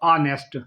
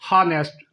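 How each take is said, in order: First: The h at the start is silent. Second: The h at the start is pronounced. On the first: The speaker calls it right. "एच silent होता है" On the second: The speaker calls it wrong. "अक्सर लोग जो बोलते हैं"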